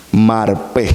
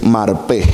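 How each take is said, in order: First: Marpé with the accent on the last E, mar-PÉ; Marpé, final syllable stressed. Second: Said in the usual way. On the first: Shown as a demonstration. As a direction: say Marpé slowly, leaning on the final É. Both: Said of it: "con acento en la E".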